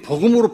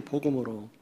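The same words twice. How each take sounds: First: 복음으로 said firmly, with a falling end; stress on 복음으로. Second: 복음으로 repeated much softer, as a trailing afterthought; soft muttered repeat of 복음으로; quiet echo. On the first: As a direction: punch 복음으로 as the key point. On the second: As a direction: drop the voice and echo 복음으로 to yourself. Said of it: "복음으로 판단해야 돼요". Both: Real, not acted.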